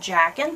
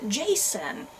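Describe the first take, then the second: First: The middle consonant is a hard K sound. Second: The middle consonant is a soft S sound. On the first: "I have been pronouncing it Jackin" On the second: "is his name pronounced Jason?"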